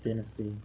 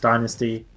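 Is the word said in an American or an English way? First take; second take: English; American. First: The word is said in an English accent. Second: The word is said in an American accent. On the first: "English pronounce it Dynasty" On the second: "the Americans pronounce Dynasty"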